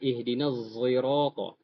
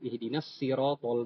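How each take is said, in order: First: The word sirata begins with a z sound. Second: The word sirata begins with an s sound. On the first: This follows another transmitted reading. "Zai yang condong ke sod" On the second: This follows one transmitted reading. "itu pakai sin"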